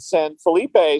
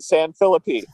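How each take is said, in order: First: It is said the way an outsider says it. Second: It is said the way a local says it. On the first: The speaker is not from the city. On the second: The speaker is from the city.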